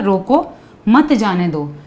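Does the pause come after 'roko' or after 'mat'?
after roko. The pause comes after the first word. Stop the person; do not let them go. "Comma मैंने अगर यहाँ लगा दिया"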